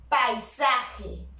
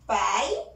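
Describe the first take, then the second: First: Said in the usual way. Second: "Paisaje" split into pai, sa, je with long pauses; "Paisaje" broken up, first syllable drawn out and rising. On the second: Shown as a demonstration. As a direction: sound out "Paisaje" slowly, one syllable at a time. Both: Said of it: "está en una misma sílabe".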